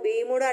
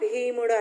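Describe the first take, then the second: First: The first consonant is said without a breath puff. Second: The first consonant is said with a breath puff. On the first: The speaker calls it wrong. "భీముడు అంటున్నామా" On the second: The speaker calls it right. "చూడండి ఎలా ఒత్తి పలుకుతున్నాము"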